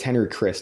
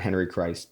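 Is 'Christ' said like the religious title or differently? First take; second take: differently; religious title. First: Christ is not said like the religious title. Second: Christ is said like the religious title. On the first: The speaker calls it right. "not a Jesus Christ, a Henry Christ" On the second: The speaker calls it wrong. "not Henry Christ"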